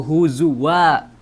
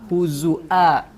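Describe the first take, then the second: First: A w sound comes before the final vowel. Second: A glottal stop comes before the final vowel. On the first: This follows the Hafs transmission of the recitation. "maka harus dibaca waw" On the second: This follows the Syu'bah transmission of the recitation. "maka harus dibaca hamzah"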